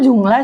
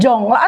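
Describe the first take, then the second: First: The first vowel is an 'u' sound. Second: The first vowel is an 'o' sound. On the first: The speaker calls it right. "sebenarnya ngomongnya Jungla sih" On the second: The speaker calls it wrong. "Jongla atau Jungla sih?"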